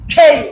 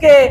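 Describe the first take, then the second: First: The consonant has a strong puff of air. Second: The consonant is plain, without a puff of air. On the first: "এর উচ্চারণ হবে কি? খে" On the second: "আমরা বলি কে"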